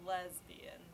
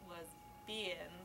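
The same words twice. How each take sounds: First: The stress is on the first syllable. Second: The stress is on the second syllable. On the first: "She put an emphasis on every syllable in turn" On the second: "She put an emphasis on every syllable in turn"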